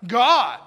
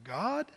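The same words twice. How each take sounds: First: God said louder and emphatic; God with an exclamation point. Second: God said softly and low with a doubtful rise; quiet, unsure God; God half asked, trailing off; God as a question mark. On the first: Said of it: "like an exclamation point". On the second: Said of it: "but it's more like God". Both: Shown as a demonstration.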